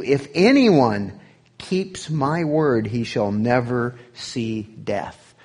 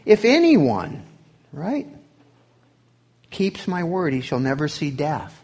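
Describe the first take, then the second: First: Slow, stretched "if anyone keeps my word" with weight on "never"; preacher slowing to stress the promise; emphasis on promises. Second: "anyone" punched high and loud, "word" and "never" falling firmly; restating the promise with punch; emphatic quote. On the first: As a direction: lean hard on "anyone", "word" and "never", drawn out. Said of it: "Tried to put some emphasis on promises". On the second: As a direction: hit "anyone" up high, then settle on "never". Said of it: "We just looked at one". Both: Shown as a demonstration.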